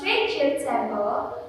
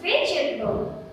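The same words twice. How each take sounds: First: Every syllable is pronounced fully. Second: One middle syllable is dropped. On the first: The speaker calls it wrong. "The same goes for number eight" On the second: The speaker calls it right. "The correct one is vegetable"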